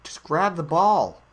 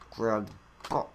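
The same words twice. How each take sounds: First: Louder, insistent push to grab it; urgent call. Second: Said in the usual way. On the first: Real, not acted. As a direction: urge it on loudly. Urging the ball into place.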